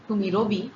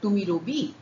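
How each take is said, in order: First: The pitch stays flat to the end. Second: The pitch rises at the end.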